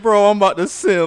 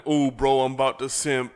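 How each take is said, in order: First: High, loud mock simp voice; hyped simp voice. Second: Mock hyped, louder and higher; loud excited fan, half-joking; hyped commenter. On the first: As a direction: squeal it like a lovestruck fan. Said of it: "He said". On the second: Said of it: "And then".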